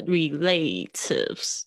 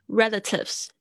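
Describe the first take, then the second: First: Relatives stressed like relate, re-LATE-ives, said very slowly; wrong stress. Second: Relatives stressed on the first syllable, RE-latives. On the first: Teacher mimics students misreading relatives, slow wrong stress. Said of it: "就会这样子乱念". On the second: Teacher models relatives for students, stress on RE. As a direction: say relatives with the weight on re at the front. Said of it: "它的重音是在这个前面这个re". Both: Shown as a demonstration.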